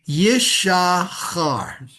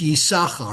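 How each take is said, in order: First: The middle consonant is an sh sound. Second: The middle consonant is an s sound. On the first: The speaker calls it wrong. "even though you got the double shin there" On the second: The speaker calls it right. "it's Yis. Actually, it's Yisachar"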